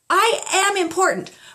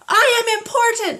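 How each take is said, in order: First: It is said at a middle volume. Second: It is said at the highest volume.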